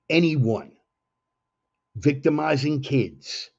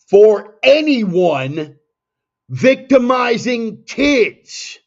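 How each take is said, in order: First: It is said at normal volume. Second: It is said more loudly.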